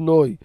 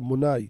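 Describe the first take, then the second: First: It is said with an Ashkenazi 'oi' ending. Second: It is said with a Sephardi 'ai' ending. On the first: This is another community's pronunciation. The speaker calls it wrong. "לא נוי" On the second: This is the traditional pronunciation of the speaker's community. The speaker calls it right. "כך היו נוהגים להגיד מבטא שלנו הספרדים"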